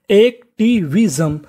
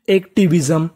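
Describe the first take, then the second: First: "एक्टिविज्म" slowly, each syllable held apart; broken into pieces. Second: Said in the usual way. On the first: Shown as a demonstration. Teacher repeating the new word for learners, "एक्टिविज्म" slowly syllable by syllable. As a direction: split "एक्टिविज्म" into slow, separate syllables. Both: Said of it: "टुकड़ों में तोड़ तोड़ के पढ़िए".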